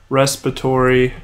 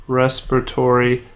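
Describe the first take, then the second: No difference in how they are said.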